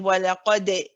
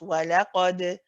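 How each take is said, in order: First: The final d ends with a light i-like vowel. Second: The final d ends with a gentle, natural bounce. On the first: The speaker calls it wrong. "you're just ending with a very big smile, and it's just sounding like a di" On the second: The speaker calls it right. "a very gentle, just a natural bounce"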